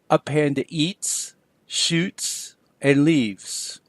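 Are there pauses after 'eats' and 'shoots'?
yes. There are pauses after eats and shoots.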